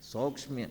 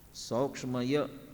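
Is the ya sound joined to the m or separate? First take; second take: joined; separate. First: The ya sound is joined to the half m. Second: The ya sound is said as a separate syllable. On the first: The speaker calls it right. "उसे आधा म और ये जुड़ करके आएगा" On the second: The speaker calls it wrong. "य का उल्लेख अलग से नहीं करना है"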